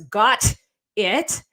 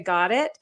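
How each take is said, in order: First: The T in got is clearly pronounced. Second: The T in got is dropped. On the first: "no one says got it" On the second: "All of us drop a T in that case"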